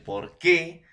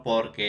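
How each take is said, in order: First: "por qué" with the force on "qué"; stress on final syllable. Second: "porque" without a stressed final syllable; átona, sin acento. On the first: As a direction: punch "qué", higher and stronger than "por". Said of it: "la mayor fuerza de voz en la última sílaba". ("por qué" con la mayor fuerza de voz en "qué") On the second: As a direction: say "porque" evenly, no punch on "que". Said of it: "no es un átona". ("porque" átono, sin fuerza en la última sílaba) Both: Shown as a demonstration.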